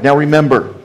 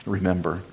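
First: Said in the usual way. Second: Soft echo. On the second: Shown as a demonstration. Preacher softly echoing remember to the congregation. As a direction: drop to a near-whispered echo of remember.

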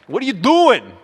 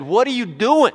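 First: Put-on high, loud German-accented outcry; comic German accent, voice leaping up; mock German accent. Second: Loud, high mock outcry; wife's alarmed outburst. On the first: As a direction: scold like a German wife, hammed up. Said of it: "More of a German accent". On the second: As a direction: imitate a wife confronting her husband, no accent. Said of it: "he didn't say it like that".

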